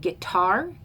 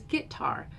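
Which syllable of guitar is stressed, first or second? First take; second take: second; first. First: The stress is on the second syllable. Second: The stress is on the first syllable. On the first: "I say it as an I am, unstressed, stressed" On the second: "says it as a trochee with the first syllable stressed"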